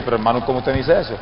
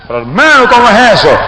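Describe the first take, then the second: First: Low, soft, quick startled question; taken aback. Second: Higher, indignant retold question; startled protest. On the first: Retold or imitated. Accused preacher questioning the evangelist, subdued fright. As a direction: question him timidly, in a retold hush. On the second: Accused preacher answering the evangelist's repeated charge, startled protest. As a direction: protest in raised-pitch disbelief. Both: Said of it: "Yo me asusté y dije".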